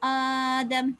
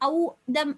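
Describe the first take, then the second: First: A long open vowel opens the word. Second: A short vowel and a glottal stop open the word. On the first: This is how it is recited. The speaker calls it right. "அப்படின்னு சொல்லி ஓதுறது" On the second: This is the underlying base form. The speaker calls it wrong. "அப்படி இல்லாம"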